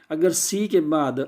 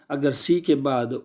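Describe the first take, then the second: No difference in how they are said.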